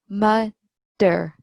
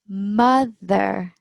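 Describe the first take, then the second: First: The middle consonant is a hard d. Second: The middle consonant is a soft th. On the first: "the D sound" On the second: "the T H sound or the th sound"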